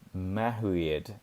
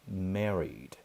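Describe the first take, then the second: First: It is read with Portuguese-style pronunciation. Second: It is said with English pronunciation. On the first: The speaker calls it wrong. "talvez você leia em português assim" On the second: The speaker calls it right. "a pronúncia correta é married"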